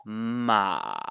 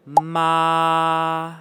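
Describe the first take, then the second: First: MA drawn out, sinking low; low dipping tone. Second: MA held long on one high, level pitch. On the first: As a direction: let Ma dip down to the bottom of your voice. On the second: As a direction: keep Ma high and perfectly level, drawn out. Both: Shown as a demonstration. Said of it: "compare that to the next tone".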